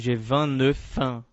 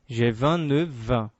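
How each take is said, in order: First: The final consonant of neuf sounds like f. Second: The final consonant of neuf sounds like v. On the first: The speaker calls it wrong. "não digo" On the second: The speaker calls it right. "mas sim"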